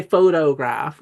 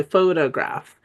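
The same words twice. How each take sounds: First: "photograph" with a full oh in the middle, pho-toh-graph; full second O. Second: "photograph" with the middle o softened to uh; reduced second O. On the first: Teacher showing what we don't say, full second O. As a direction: give both o's in "photograph" a clear long O. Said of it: "But we don't say". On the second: Teacher showing what we do say, reduced second O. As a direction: say "photograph" as PHO-tuh-graph, middle vowel a schwa. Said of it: "we say photograph". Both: Shown as a demonstration.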